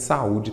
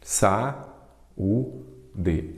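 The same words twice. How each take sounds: First: Said in the usual way. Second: "Sa, u, de" with clear gaps between syllables. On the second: Shown as a demonstration. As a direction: split saúde into three separate beats, Sa, u, de. ("Sa, u, de" dito sílaba por sílaba, com pausas) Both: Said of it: "Sempre dou esses exemplos também".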